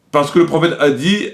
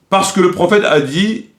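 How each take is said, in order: Both takes have the same delivery.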